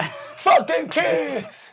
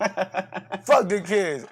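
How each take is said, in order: First: High, drawn-out comic yell; defiant shout. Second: Slow, drawn-out half-yell; milder defiant repeat. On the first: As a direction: holler it slowly at full voice. Shouted retort to yelling complaint. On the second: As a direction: stretch it out, holding back the shout. Repeats the retort less forcefully. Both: Pretend.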